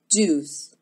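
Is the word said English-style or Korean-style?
English-style. It is said English-style, with rounded lips. "입술을 오므리면 훨씬 영어스럽게 들리고"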